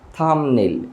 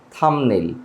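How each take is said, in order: No difference in how they are said.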